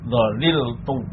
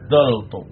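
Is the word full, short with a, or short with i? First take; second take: full; short with a. First: The full form is said with all syllables. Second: A short form is said with a first. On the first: "Yang pertama itmam, artinya tetap tidak ada perubahan" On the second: "kalimatnya dibuang, fa kalimatnya harakatnya tetap"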